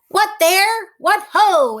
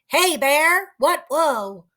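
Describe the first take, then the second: First: It is spoken clearly. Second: It is spoken muffled, as with a full mouth.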